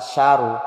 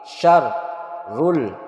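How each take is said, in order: First: The r sound is short and single. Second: The r sound is pressed and held. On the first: The speaker calls it wrong. "bukan syaru" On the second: The speaker calls it right. "Ada tasdid, ditekan, ditahan. ... tetapi syarrul ya betul"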